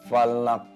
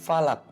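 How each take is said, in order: First: The final k ends with an echoing bounce. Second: The final k ends plainly without a bounce. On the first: The speaker calls it right. "karena ada hukum kol-kolah. Jadi bacanya falak" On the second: The speaker calls it wrong. "Bukan falak"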